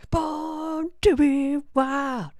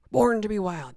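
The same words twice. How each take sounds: First: Sung, high, slow belted rock line; sung, belt it like a rock anthem; sung title. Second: Loud happy recognition; excited. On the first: Pretend. Sings song title. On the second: Real, not acted. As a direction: blurt the title out gladly. Recognizes song title.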